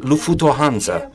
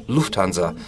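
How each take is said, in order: First: Lufutohansa with a vowel after every consonant, lu-fu-to-han-sa; vowel between consonants. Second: Said in the usual way. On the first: Shown as a demonstration. Speaker shows how her accent splits Lufthansa with extra vowels. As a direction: sound out Lufutohansa so that each consonant gets a vowel. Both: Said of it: "I pronounce it".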